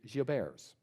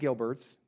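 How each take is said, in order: First: The name is said with a French pronunciation. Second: The name is said with an English pronunciation. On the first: The speaker calls it right. "The correct pronunciation, I'm told, is Gilbert's" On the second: The speaker calls it wrong. "So it's not Gilbert's"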